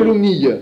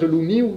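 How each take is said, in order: First: The word ends in an ee-yuh sound. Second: The word ends in an ee-oo sound. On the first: Some other people use this form. "Il y en a qui disent l'ounille" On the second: This is the form used around Grignol. "On prononce l'ouniou du côté de Grignol"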